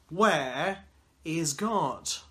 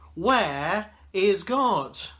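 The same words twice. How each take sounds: First: It is said in a sterner tone. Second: It is said with a raised voice.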